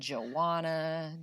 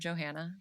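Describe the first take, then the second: First: The name is said without a middle h sound. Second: The name is said as Joe plus Hannah. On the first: The speaker calls it wrong. "Stop calling me that" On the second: The speaker calls it right. "it's just two separate names, Joe and Hannah. Put them together"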